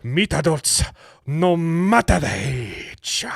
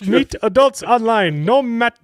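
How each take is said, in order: First: Put-on slow, drawn-out Japanese accent; mock Japanese accent. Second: Put-on high, loud, slow Indian accent. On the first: Reading a dating ad to co-hosts, mock Japanese accent. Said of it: "it's gotta be Japanese". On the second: Reading a dating ad to co-hosts, hammed-up Indian accent. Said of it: "I switched to an Indian accent".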